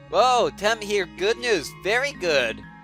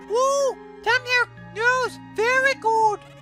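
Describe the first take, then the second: First: It is said in the speaker's normal voice. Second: It is said in a put-on Temmie voice.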